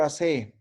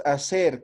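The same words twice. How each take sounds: First: "hacer" without final r, stressed hacÉ; imperative form. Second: Said in the usual way. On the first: Shown as a demonstration. Teacher asking for the order form, "hacer" said as hacé. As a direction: end "hacer" on a stressed open é. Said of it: "cómo digo frase de orde". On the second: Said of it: "Luraña es hacer".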